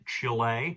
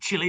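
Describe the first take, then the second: First: It is pronounced the American way. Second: It is pronounced the speaker's British way.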